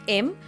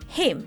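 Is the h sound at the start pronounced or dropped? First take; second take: dropped; pronounced. First: The word begins without an h sound. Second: The word begins with an h sound.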